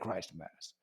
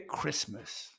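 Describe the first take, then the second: First: The T is pronounced, splitting two clear parts. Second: The T is silent, said as one smooth word. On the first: The speaker calls it wrong. "They don't say Christ Mass" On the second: The speaker calls it right. "They say Christmas"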